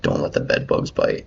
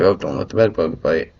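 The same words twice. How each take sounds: First: Said in the usual way. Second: "bed bugs" said a little louder, as a set farewell; conversation-ending intonation. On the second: Retold or imitated. Someone ending a conversation, conversation-ending intonation. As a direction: say "don't let the bed bugs bite" as a friendly throwaway sign-off. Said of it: "tell by the way they said it".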